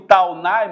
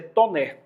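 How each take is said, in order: First: The name is said with a Brazilian Portuguese pronunciation. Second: The name is said with a French pronunciation. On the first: "Eu pronuncio Taunay" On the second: "mas no francês é Tonnerre"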